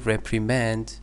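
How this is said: It is said with an American pronunciation. "American pronunciation"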